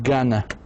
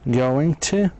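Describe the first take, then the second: First: The words are reduced and blended into one. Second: Both words are said fully and separately. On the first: "بصير gonna" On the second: "Going to بصير gonna"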